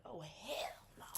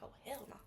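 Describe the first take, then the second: First: Slow whispered hell no; whispered refusal. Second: Said in the usual way. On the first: Retold or imitated. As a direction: breathe the refusal slowly. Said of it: "you be like". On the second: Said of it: "homie be like".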